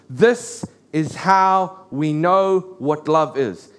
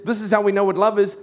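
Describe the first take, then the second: First: Half-speed, word by word; slow, weighty quotation. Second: Said in the usual way. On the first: Retold or imitated. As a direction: spell out the verse deliberately, pausing between phrases. Preacher quotes the defining verse slowly.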